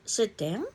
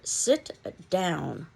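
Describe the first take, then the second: First: It is said with a rising, questioning tune. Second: It is said forcefully, like an exclamation. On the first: It asks whether to sit. "a question mark" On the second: It is an emphatic command. "an exclamation point"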